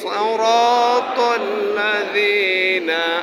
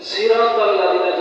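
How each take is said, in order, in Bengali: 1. প্রথম s টি ভারী, মোটা s। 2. প্রথম s টি হালকা, সাধারণ s। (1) "সিন বলা যাবে না" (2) "সিন আপনি যদি বলেন ... ভুল হবে"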